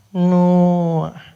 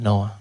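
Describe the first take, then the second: First: Clerk voice. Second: Said in the usual way. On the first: Retold or imitated. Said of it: "clerk repeats in her voice". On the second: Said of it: "Noah repeated in clerk voice".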